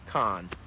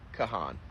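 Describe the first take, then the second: First: One vowel is silent, giving one syllable. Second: Both vowels are sounded, giving two syllables. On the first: The speaker calls it right. "It's Khan. One of the A's is silent" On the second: The speaker calls it wrong. "it's not"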